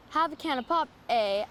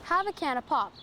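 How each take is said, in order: First: "have a can of pop, eh?" with a questioning "eh?" added at the end; friendly Canadian "eh?" tag; tacked-on Canadian eh. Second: Said in the usual way. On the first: Shown as a demonstration. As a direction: end "pop" on a rise, then add "eh?". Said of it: "adds some good old Canadian confusion". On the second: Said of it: "is to the point".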